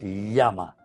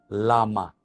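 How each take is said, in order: First: The l sound is doubled and held longer. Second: The l sound is single and short.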